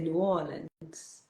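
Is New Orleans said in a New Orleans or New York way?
New Orleans. It is said the local New Orleans way. The speaker calls it right. "they said to me that I have to pronounce it a certain way"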